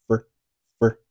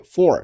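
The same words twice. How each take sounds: First: "for" reduced to a quick "fer"; weak form. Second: Said in the usual way. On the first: Shown as a demonstration. Teacher showing learners weak "for", reduced. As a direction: shrink the vowel of "for". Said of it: "for同样做了弱读，读成了". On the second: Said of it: "后面for同样做了弱读".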